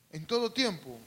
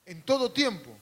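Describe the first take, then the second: First: Said in the usual way. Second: Louder, preaching call; emphatic first call. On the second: Shown as a demonstration. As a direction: proclaim it loud to the congregation.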